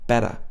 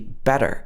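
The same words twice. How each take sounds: First: The t is tapped and it ends without r. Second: The t is tapped and it ends with r. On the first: "you wouldn't hear the er sound at the end. It would be more like better" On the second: "In American English, this would normally be better"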